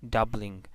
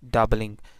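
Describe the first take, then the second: First: The L does not form its own syllable. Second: The L forms its own syllable. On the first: "So in this case, uh, L would not be syllabic" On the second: "So then it would be a syllabic L"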